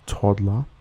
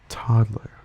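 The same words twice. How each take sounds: First: It is said in an Australian accent. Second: It is said in an American accent. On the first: "examples of these words" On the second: "An American speaker would pronounce these words like"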